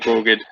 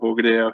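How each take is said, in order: First: The word drops its final vowel sound. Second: The word ends with its final vowel sound.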